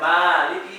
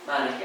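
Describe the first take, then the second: First: The first vowel is held long. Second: The first vowel is kept short. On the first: "ada alifnya Maliki panjang" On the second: "yang satu Maliki"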